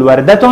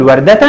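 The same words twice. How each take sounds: First: وردة as "wardatun"; tanween with damma. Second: وردة as "wardatan"; tanween with fatha. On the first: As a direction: end وردة on "-tun". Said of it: "وعند التنوين بالضمة هنقول". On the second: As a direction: end وردة on "-tan". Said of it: "عند التنوين بالفتح هنقول". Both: Shown as a demonstration.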